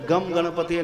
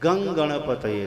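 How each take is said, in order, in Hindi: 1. पहला शब्द m ध्वनि पर खत्म होता है। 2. पहला शब्द ng ध्वनि पर खत्म होता है। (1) "गम गणपतये नहीं" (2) "गंग गणपतये नमः। गंग क्यों?"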